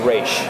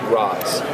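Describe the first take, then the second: First: The name is said like 'raysh', ending in 'sh'. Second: The name is said like 'rahz', ending in 'z'. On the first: The speaker belongs to the group and shows respect to its leader. "you say Raish. It's a sign of respect. It's the it's the proper way to pronounce it" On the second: The speaker is an outsider showing disrespect to the leader. "it's a way of disrespecting the leader, you say Roz"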